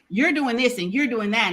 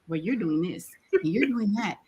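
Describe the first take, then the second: First: It is said in a blunt, direct tone. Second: It is said in a nice, gentle tone.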